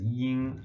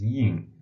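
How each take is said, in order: First: The word is said on a high level pitch. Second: The word is said with a sharply falling pitch. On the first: "ying in the first tone" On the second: "ying in the fourth tone"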